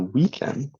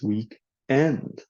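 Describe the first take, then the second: First: The stress falls on 'week'. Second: The stress falls on 'end'. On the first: It is a compound naming Saturday and Sunday. "you stress the first word" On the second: It asks when the current week finishes. "people tend to stress the second word"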